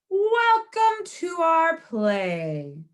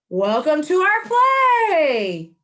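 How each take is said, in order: First: It is said at a normal, softer volume. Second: It is said in a louder voice.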